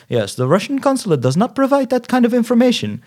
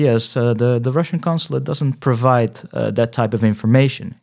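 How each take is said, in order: First: Much higher mock official voice; indifferent repeated stock answer. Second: Mildly imitated indifferent Russian official; indifferent consulate clerk. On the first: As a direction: parrot the consulate's stock refusal in a high voice. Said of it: "echt vijf keer hetzelfde antwoord gekregen". (hoog nagedaan, onverschillig standaardantwoord) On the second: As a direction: recite a stock refusal, lightly in character. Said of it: "De onverschilligheid waarmee iemand je aanspreekt". (licht nagedane onverschillige consulaatmedewerkster)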